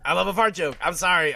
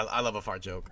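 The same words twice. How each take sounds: First: Loud, high-pitched insistence; louder and higher, punching it out; defiant confession. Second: Said in the usual way. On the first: Real, not acted. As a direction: own up to it loudly, unapologetically.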